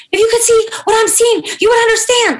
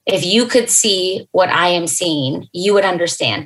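First: Imitating a high, loud, strained cry; high strained wail. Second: Said in the usual way. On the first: Assistant wailing the news down the phone, high and loud. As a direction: voice climbing way up, louder, breaking with shock. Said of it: "like, like that". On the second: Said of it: "But she didn't say it like that".

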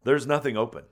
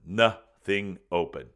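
First: Said in the usual way. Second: NOTHING drawn out slowly, word by word; "Nothing open" spaced out, slow and deliberate; emphatic repeat. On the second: Shown as a demonstration.

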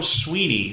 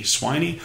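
First: "Sweeney" with a long ee first, SWEE-nee. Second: "Sweeney" with an eye vowel first, SWY-nee. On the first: Host reading a sports headline, "Sweeney" said SWEE-nee. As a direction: say "Sweeney" to rhyme with "genie". Unsure how to read the name. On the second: Host second-guessing a coach's name, "Sweeney" said SWY-nee. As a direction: say "Sweeney" to rhyme with "tiny". Tries the other reading of name. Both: Real, not acted.

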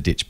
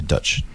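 First: Said in the usual way. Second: Ditch said Dutch, Kiwi centralised vowel; Kiwi accent. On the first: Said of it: "He said ditch". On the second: Shown as a demonstration. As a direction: Dutch with a New Zealand short i. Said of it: "I'm doing the Kiwi accent, so Dutch".

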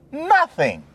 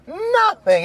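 First: Said in the usual way. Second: Nothing much higher, falling hard; emphatic higher repeat. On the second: Real, not acted. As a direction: hit Nothing up high and let it drop.

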